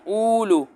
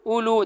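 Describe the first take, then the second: First: The written waw sound is pronounced. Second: The written waw sound is left silent. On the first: The speaker calls it wrong. "ये ऐसा आपने नहीं पढ़ना है" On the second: The speaker calls it right. "बल्कि कैसे पढ़ना है"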